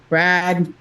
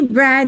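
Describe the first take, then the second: First: The name is said in a flat, curt tone. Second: The name is said in a bright, friendly tone. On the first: The caller seems unfriendly and uninviting. The speaker calls it wrong. "you're like, I don't like that guy" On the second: The caller seems friendly and inviting. The speaker calls it right. "That kid's like, who's that? ... We're going to go play"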